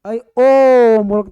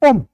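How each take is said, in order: First: The vowel is drawn out for a long time. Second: The vowel is said short and clipped. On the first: The call is meaningful. The speaker calls it right. "तब तो ओम का सार्थक है" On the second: The call is not meaningful. The speaker calls it wrong. "ये सार्थक नहीं है"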